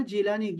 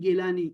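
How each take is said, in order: First: جیلانی with an initial j sound; جیلانی said with jeem, not gaaf; J pronunciation. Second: گیلانی with an initial hard g; گیلانی said with gaaf replacing jeem; hard G pronunciation. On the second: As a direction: say گیلانی starting with g as in go. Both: Shown as a demonstration. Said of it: "جیم کو گاف پڑھتے ہیں".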